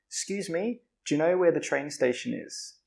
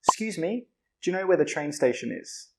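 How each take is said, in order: No difference in how they are said.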